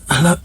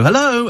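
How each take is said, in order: First: It is said in a weak, feeble, ill-sounding voice. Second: It is said in a normal, healthy voice.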